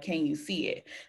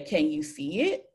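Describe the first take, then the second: First: It is said flat, like a statement. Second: It is said rising, like a question.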